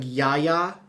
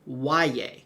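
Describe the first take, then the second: First: The first syllable sounds like yah. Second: The first syllable sounds like why. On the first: The speaker calls it wrong. "that kind of looks like Yaya. It is not" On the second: The speaker calls it right. "Y A H is pronounced like the word Y, and then Y A is yay"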